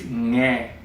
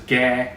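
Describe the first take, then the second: First: It begins with a nasal NG sound. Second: It begins with a plain hard G sound. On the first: The speaker calls it right. "It's ngeh" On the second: The speaker calls it wrong. "Most people pronounce it as gah, like a G, like Gary. It's not"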